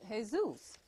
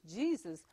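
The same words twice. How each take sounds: First: The name is said with Latin pronunciation. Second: The name is said with English pronunciation. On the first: "but in Latin is" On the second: "We say it in English"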